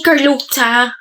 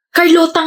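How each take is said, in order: First: "Carlota" with the t turned into "tsa"; imitated mispronunciation. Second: "Carlota" with a plain t in the last syllable; correct pronunciation. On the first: Girl mimicking friend's slip, "Carlota" said as "Carlotsa". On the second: Shown as a demonstration. Girl correcting how her name is said, "Carlota" with plain t. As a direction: say "Carlota" ending in a clean "ta". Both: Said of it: "ganyan mo binabanggit yung pangalan ko".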